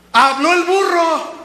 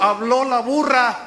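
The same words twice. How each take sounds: First: High, loud, slow proclamation; emphatic exclamation. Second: Said in the usual way. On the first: Real, not acted. Preacher driving the saying home to congregation, loud exclamation. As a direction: cry it out slowly. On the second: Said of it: "De ahí viene el dicho".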